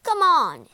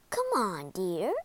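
First: Loud, raised impatient prod; impatient king. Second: Calm, low-key coaxing; gentle queen. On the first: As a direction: urge a servant sharply to answer. Impatient king prods the maid. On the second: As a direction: coax a loved one gently. Queen gently coaxes the king. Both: Acted.

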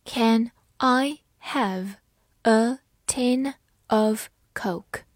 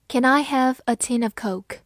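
First: Very slow, word by word; slow reading. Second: Said in the usual way. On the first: Shown as a demonstration. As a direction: read it slowly for learners. (慢速朗读) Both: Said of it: "好，慢慢来读。".

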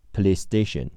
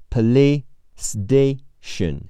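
First: Said in the usual way. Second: "police station" slowly as "puh-lee-stay-shun", higher; linked s sounds. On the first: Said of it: "连在一起读". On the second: Shown as a demonstration. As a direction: say "police station" by syllables with one shared s. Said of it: "police的s和station的s连在一起读".

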